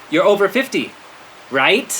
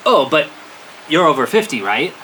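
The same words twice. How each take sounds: First: Higher, insistent leading question; pointed hinting. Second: Lightly acted leading question; hinting. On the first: Retold or imitated. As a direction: press the hint, lifting "right". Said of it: "he has to be tough". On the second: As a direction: drop a helpful hint. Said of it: "they didn't get the hint".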